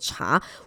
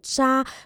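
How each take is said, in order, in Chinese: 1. 这个字的开头是 ch 音。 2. 这个字的开头是 zh 音。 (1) "我们不能读作查" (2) "我们要把它读成渣"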